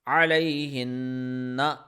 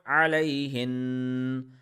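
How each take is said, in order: First: The final vowel ending is pronounced. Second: The final vowel ending is dropped. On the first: The reciter continues without stopping. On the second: The reciter stops on this word.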